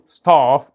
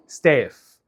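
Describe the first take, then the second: First: British "ستاف" with a broad "ah"; British pronunciation. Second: American "ستاف" with a fronted vowel; thin front vowel in "ستاف"; American pronunciation. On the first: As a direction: say "ستاف" as "stahf", British style. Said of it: "البريتش يقول ستاف". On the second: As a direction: say "ستاف" as "stef", American style. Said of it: "الامريكان يقول ستاف". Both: Shown as a demonstration.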